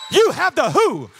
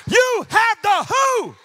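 First: Loud, punched preaching line; loud declaration, slightly raised pitch; forceful proclamation. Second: Slow, high, stretched preaching shout; shouted proclamation. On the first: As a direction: proclaim it firmly to the congregation. First take of climax line. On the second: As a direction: shout it out word by word. Repeats it, bigger. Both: Real, not acted.

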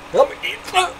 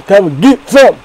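First: Much higher squeaky mock dare; squeaky taunt. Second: Loud hammed-up challenge; loud taunt. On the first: Daring the fast food places, squeaky mock taunt. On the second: Daring the fast food places, loud mock taunt. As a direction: bellow the dare at the burger chains.

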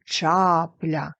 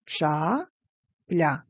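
First: Чапля joined up, long loud ча; exaggerated stress on ча in Чапля; stress on first syllable. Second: Two separate beats with a pause; syllable by syllable. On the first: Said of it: "Вимовляємо так, щоб почути наголос". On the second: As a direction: break Ча-пля into ча and пля. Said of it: "Ділимо на склади". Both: Shown as a demonstration.

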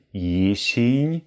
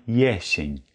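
First: Jesień with a closed e, like "jeshin"; wrong jesień. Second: Jesień with an open Ä, YÄ-shen; right way: open e in jesień; correct jesień. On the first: Teacher demonstrates the typical learner mistake. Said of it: "Es ist nicht". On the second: Teacher gives the correct form after the mistake. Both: Shown as a demonstration.

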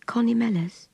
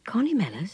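First: Put-on high little-girl voice; piping child voice. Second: Adult voice echoing with interest; woman repeating kindly. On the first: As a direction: answer in a small, piping pitch. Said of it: "responded the piping voice". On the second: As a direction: repeat it back as a gentle question. Woman repeats the child's name back. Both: A narrator's reading.

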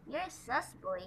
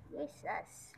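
First: Said in the usual way. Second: Playful whispered tease. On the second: Pretend. Vlogger whispers a tease to his puppy. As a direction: whisper it to the dog.

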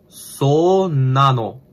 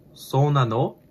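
First: "so nano" stretched very slowly, word by word; drawn-out demonstration. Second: "so nano" said quickly with a rising question end; questioning tune. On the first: Learner sounding out the phrase for "oh really", "so nano" drawn out. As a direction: draw out "so nano" slowly with a falling end. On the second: Learner trying the phrase for "oh really", "so nano" rising as a question. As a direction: lift the end of "so nano" like asking. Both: Shown as a demonstration. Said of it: "oh really".

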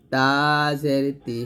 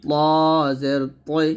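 First: তা জের তি with a light t; thin ta. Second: প জের তৈ, প said as a heavy rounded "taw"; thick taw. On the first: Teacher contrasts ta with its twin, light তা. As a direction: keep তা and তি thin and unrounded. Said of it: "তাটা পাতলা হবে". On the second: Teacher contrasts the heavy twin, thick প. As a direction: make প and তৈ thick and full-mouthed. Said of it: "পটা মোটা করে বলতে হবে". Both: Shown as a demonstration.

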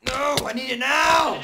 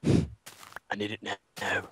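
First: High, loud, slowed demand; urgent yelling. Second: Low, soft, slow mockery; flat mocking repeat. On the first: Acted. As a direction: insist loudly it's needed now. Demanding wheat. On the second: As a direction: echo it back slow and deadpan.

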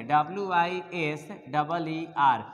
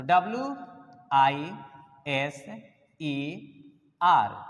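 First: Slow letter-by-letter spelling of the wrong form "W I S डबल ई R"; wrong spelling spelled out. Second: "W I S ई R" spelled one letter at a time, with pauses between; correct spelling spelled out. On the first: Teacher showing students the wrong spelling, slowly spelled out. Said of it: "ऐसा करना गलत होगा". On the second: Teacher spelling the correct word for the class, letter by letter. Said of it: "ये सही word हो गया". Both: Shown as a demonstration.

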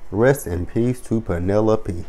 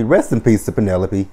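First: Mock mournful. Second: Said in the usual way. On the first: Repeats tribute slowly, softly.

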